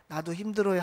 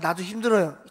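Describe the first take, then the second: First: It is said softly and gently. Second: It is said curtly and sharply. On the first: "그냥 부드럽게" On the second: "그분 말투는 그게 아니라 ... 딱 이 말투였어요"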